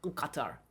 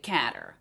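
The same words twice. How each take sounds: First: It is said with a guttural throat sound. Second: It is said in a Canadian-sounding accent. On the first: This is closer to the local pronunciation. "closer to their pronunciation, which is a guttural Qatar" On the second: This is how Canadians say it. "unless you're Canadian, and they say"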